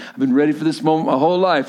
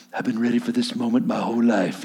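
First: Said in the usual way. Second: Soft, low, awed little guy; small quiet Rudy voice. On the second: Retold or imitated. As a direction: murmur it up to the captain, hushed and low. Rudy voiced in retold movie.

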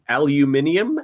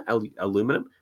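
First: "aluminium" said the British way, with an extra i; British "aluminium", five syllables; British pronunciation. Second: "aluminum" said the American way, four syllables; American "aluminum", without the extra i; American pronunciation. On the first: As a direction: say "aluminium" as al-you-MIN-ee-um. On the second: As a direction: say "aluminum" as a-LOO-mi-num. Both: Shown as a demonstration. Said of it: "that's how you pronounce aluminum".

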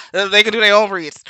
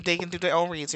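First: Loud repeat just after laughing; amused insistence. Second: Said in the usual way. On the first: Real, not acted. Insisting on New Yorkers' reads, loud and amused. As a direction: push it out louder, amused.

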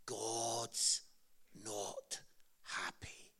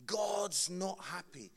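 First: Very slow, much lower and softer, fading to a whisper on "happy"; doom-laden preacher. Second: Slow, a hint of the grim evangelist; lightly imitated preacher. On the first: Retold or imitated. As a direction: drop the voice word by word like a grim evangelist. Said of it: "He always started by saying". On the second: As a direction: retell the line slowly, only lightly voiced. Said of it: "That is how he would always start".

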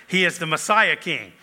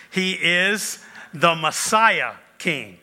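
First: Said in the usual way. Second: Slow emphasis. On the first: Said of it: "Next, he is the Messiah king". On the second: Shown as a demonstration. Pastor announcing the next point, slow and weighty. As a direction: stretch "Messiah" slowly, word by word.

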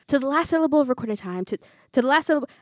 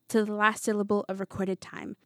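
First: Loud, high, rushed recitation, stumbling; frantic. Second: Said in the usual way. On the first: A narrator's reading. Pupil desperate to remember the Macbeth speech, frantic. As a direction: race through the line in rising panic and break off. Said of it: "I'm frantically trying to remember".

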